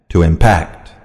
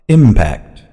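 First: Impact stressed on the second syllable, im-PACT. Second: Impact stressed on the first syllable, IM-pact. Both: Shown as a demonstration. Noun and verb stress drill.

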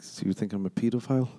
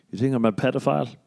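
First: Long EE in the first syllable of "pedophile"; long-E pronunciation. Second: Short E as in "bed" opening "pedophile"; short-E pronunciation. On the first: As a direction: say "pedophile" starting like "peed". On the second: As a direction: say "pedophile" starting like "ped". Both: Retold or imitated. Same question said two ways.

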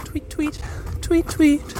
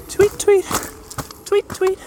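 First: High chirpy tweet tweet; cartoon bird voice. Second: Very high chirpy tweets; cartoon bird voice. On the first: Imitating bird while following. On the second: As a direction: squeak the tweets like a tiny bird. Imitating bird, higher.

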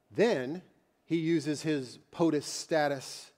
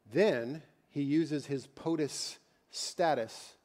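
No difference in how they are said.

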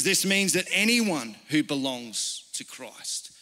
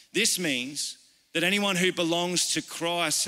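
First: Slow down and hit "anyone" hard; "anyone" stretched and raised above the other words; stress on anyone. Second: Said in the usual way. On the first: Shown as a demonstration. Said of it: "Notice that word there, anyone".

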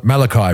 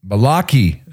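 First: "Malachi" said MAL-uh-kye, stress on the first syllable; corrected pronunciation. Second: "Malaki" said mah-LAH-kee, stress on the middle; mistaken pronunciation. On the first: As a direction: say "Malachi" ending like "eye". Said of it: "It's not Malaki, evidently". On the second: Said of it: "It's not Malaki". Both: Shown as a demonstration.

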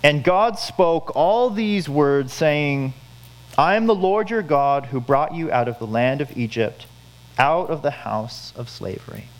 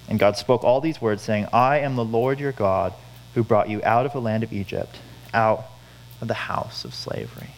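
First: Scripture reading. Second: Said in the usual way. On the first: Shown as a demonstration. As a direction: read it out slowly like holy words. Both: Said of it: "This is God's word".

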